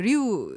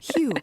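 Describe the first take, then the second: First: It starts with an R sound. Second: It starts with an H sound. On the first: This is the commonly known pronunciation. "우리가 보통 인제 알고 있는 리우" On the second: This is the Brazilian Portuguese pronunciation. "지금 말씀하실 때 히우라고 하셨어요"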